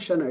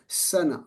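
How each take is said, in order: First: The syllable begins with a 'sh' sound. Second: The syllable begins with a plain 's' sound. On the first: The speaker calls it wrong. "It's not shana" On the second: The speaker calls it right. "it's sana"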